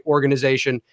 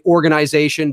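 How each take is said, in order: First: ORGANIZATION with a short weak middle, "organ-uh-zation"; American pronunciation. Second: ORGANIZATION with "eye" in the middle, "organ-eye-zation"; Canadian pronunciation. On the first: Canadian showing how Americans down there say it, "organ-uh-zation". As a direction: reduce the I in ORGANIZATION to "uh". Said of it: "you guys say organization". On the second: Canadian showing how people up here say it, "organ-eye-zation". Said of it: "up here we say". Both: Shown as a demonstration.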